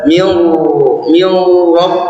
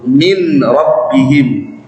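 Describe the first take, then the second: First: An l sound is heard before the r. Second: The n merges straight into the r. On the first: The speaker calls it wrong. "Jadi tidak dibaca mil mil rob" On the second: The speaker calls it right. "langsung melebur"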